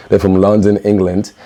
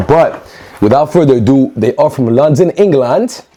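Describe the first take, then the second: First: Said in the usual way. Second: High, sing-song mock British accent on London, England; terrible British accent. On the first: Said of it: "That was better". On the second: Vlogger botching a British accent while unboxing, mock British. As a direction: ham up a bad British accent. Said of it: "that was a terrible accent".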